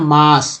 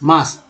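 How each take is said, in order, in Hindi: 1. स्वर का उच्चारण लंबे 'aa' की तरह होता है। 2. स्वर का उच्चारण लंबे 'aa' की तरह होता है।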